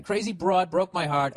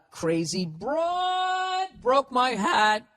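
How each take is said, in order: First: Dramatic, slower read of the letter writer; higher, overwrought guy reading his letter; the guy again. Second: High, drawn-out mock melodrama; Sex and the City chick. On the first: Retold or imitated. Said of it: "this is the guy again". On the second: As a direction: wail it slowly like a TV heroine. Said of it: "It sounds like that fucking chick from".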